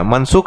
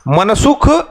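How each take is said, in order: First: It is said with a standard Hindi accent. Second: It is said with a Chhattisgarhi regional accent. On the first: "मनसुख है" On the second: "मैं थोड़ा छत्तीसगढ़िया tone में बोल रहा हूं"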